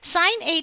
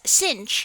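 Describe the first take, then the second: First: It is said as the two words sine h. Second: It is said as the single syllable sinh. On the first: The speaker calls it right. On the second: The speaker calls it wrong.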